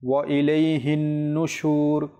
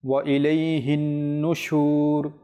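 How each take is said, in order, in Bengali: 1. নাসিক্য 'ন' এর আওয়াজ টেনে পড়া হয়। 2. নাসিক্য 'ন' এর আওয়াজ টেনে পড়া হয়।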